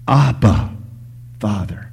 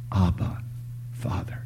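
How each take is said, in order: First: Crying out. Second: Soft appeal fading to a whisper; hushed cry. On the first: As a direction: call out to God, then let it drop. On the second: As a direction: quietly call on God, almost whispering. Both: Acted. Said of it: "we know to cry out".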